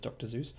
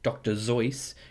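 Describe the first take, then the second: First: The name is given an English pronunciation. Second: The name is given a German pronunciation. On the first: This is how the name is not meant to be said. The speaker calls it wrong. "not as Doctor Zeus" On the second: This is how the name is meant to be said. The speaker calls it right. "apparently he's meant to be pronounced as Doctor Zeus because he, I think he's German"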